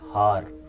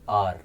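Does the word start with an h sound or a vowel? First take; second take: h sound; vowel. First: The word starts with an audible h sound. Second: The word starts with a vowel sound, no h. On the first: The speaker calls it wrong. "not har" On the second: The speaker calls it right. "we always pronounce this word R"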